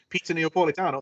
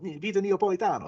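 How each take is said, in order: First: It is said plainly, without Italian flair. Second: It is said with exaggerated Italian flair. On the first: The speaker calls it wrong. "that's terrible" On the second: The speaker calls it right. "that's the way you do it"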